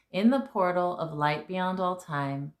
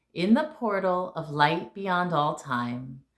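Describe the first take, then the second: Both takes have the same delivery.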